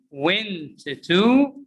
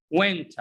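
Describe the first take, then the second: First: "went to" split, rising on a full "too"; over-separate the words in "went to"; long "too" in "went to"; unreduced wrong example. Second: "Went" as one word, "wenta"; weak "tuh" tacked onto "Went"; reduced pronunciation. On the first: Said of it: "Do we pronounce this went to?". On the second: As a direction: blend it into a short "wenta". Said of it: "It's pronounced what?". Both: Shown as a demonstration.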